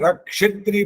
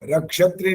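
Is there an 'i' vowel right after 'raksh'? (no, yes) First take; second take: yes; no. First: A short i vowel follows the ksh sound. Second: No vowel follows the ksh sound. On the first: The speaker calls it right. "रक्षित्री बोलना है। क्ष में छोटी की मात्रा भी बोलनी है।" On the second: The speaker calls it wrong. "रक्षत्री नहीं बोलना"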